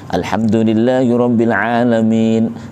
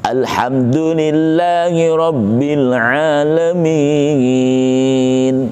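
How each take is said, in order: First: The last vowel is held for two beats. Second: The last vowel is held for four beats. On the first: "mat aridnya dibaca dua harokat" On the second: "Empat itu boleh"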